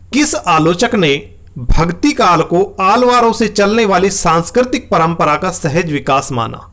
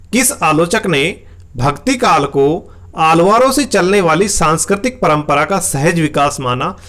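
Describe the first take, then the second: No difference in how they are said.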